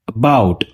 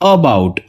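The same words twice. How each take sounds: First: The first vowel is a weak, reduced schwa. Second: The first vowel is a full, stressed uh sound. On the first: "unstress श्वा के साथ" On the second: "stressed श्वा के साथ"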